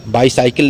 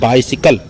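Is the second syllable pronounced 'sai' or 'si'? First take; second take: sai; si. First: The second syllable sounds like 'sai'. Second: The second syllable sounds like 'si'. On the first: The speaker calls it wrong. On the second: The speaker calls it right.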